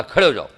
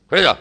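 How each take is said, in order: First: Sharp loud order to stand; angry command. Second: Stern shouted order; angry command. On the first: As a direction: bark it like a scolding teacher. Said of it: "गुस्से से बोला". (गुस्से में ऊँची आवाज़ में आदेश) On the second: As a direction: snap the order at the student. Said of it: "अभी मैंने बोला, गुस्से से बोला". (गुस्से से डांटना) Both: Shown as a demonstration.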